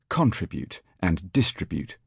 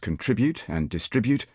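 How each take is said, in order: First: The stress falls on the first syllable. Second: The stress falls on the second syllable. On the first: This is the newer pronunciation now spreading. "the old tendency has been at work" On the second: This is the older established pronunciation. "Once, to all appearance, fixed irreversibly as"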